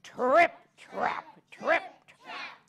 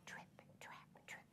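First: Heavier, bolder trip trap; big goat steps. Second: Tiny whispered hoofsteps; whispered trip trap. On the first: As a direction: stomp it out like the largest goat. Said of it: "let's hear it". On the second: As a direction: whisper it like little feet. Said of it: "the smallest billy goat's really quiet". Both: Shown as a demonstration.

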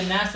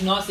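First: نس as a quick "nas", not "naas"; short a pronunciation. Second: ناس stretched as "naas", not "nas"; long a pronunciation. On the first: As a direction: say نس with a short clipped "a". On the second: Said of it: "اسمش ناس یا نس". (ناس را با «آ» کشیده بگو) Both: Shown as a demonstration.

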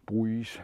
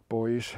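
First: "Buoys" said with an oo glide, like "boo-eez"; pronunciation variant. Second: Put-on "Buoys" said as one syllable, like "boys"; pronunciation variant. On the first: [name] trying the word another way, "Buoys" sounded like "boo-eez". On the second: [name] naming fishing floats for viewers, "Buoys" sounded like "boys". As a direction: say "Buoys" to rhyme with "toys". Says the word two ways. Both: Shown as a demonstration.

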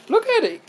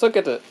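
First: Much higher, squealing with delight; high excited squeal. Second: Said in the usual way. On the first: Real, not acted. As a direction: squeal it out over something cute.

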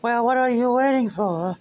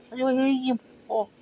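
First: High impatient voice. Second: Faster high impatient voice. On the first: Impatient character voice. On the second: Repeated, faster and higher. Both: Acted.

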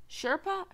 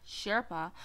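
First: Sherpa pitched high with a questioning rise. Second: Sherpa in usual pitch, falling at the end; stated SHERPA. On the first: Player puzzled by the sign, questioning rise on Sherpa. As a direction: ask "Sherpa?" with the voice going up. Questions the word just read. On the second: Player confirming the sign's word, falling tone on Sherpa. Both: Real, not acted.

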